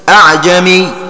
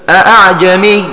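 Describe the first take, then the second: First: It starts with a single pronounced glottal stop. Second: It starts with two fully pronounced glottal stops. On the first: "وقرأ هشام بإسقاط همزتها الأولى وتحقيق الثانية هكذا" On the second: "فقرأوا بهمزتين محققتين هكذا"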